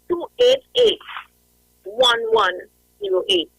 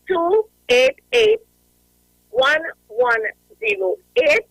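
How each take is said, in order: First: The numbers are read quickly. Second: The numbers are read slowly. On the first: The speaker calls it wrong. "I'm calling the numbers too fast" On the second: The speaker calls it right. "So I'm going to say it slowly"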